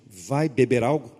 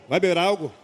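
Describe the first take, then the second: First: The phrase is spoken at a slow, careful pace. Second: The phrase is spoken quickly, words running together.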